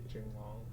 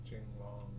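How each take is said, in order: The two takes are said the same way.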